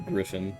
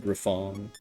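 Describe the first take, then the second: First: The last syllable sounds like fin. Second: The last syllable sounds like fon. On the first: This is the intended name. "obviously Griffin" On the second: This is said for fun. "it's funnier to say Griffon"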